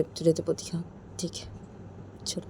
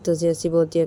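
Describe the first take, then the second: First: Coaching a friend, said much softer; softly. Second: Said in the usual way. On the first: Shown as a demonstration. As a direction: drop to a soft murmur on तुझे तो बोलती हाँ.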